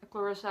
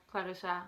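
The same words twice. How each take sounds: First: Clarissa said the English way; English pronunciation. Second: Clarissa said the Dutch way; Dutch pronunciation. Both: Shown as a demonstration. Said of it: "pronouncing my name in English and Dutch".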